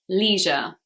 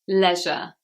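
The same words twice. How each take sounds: First: It is said with an American accent. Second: It is said with a British accent. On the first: "American English pronunciation" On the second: "But here in England, we say"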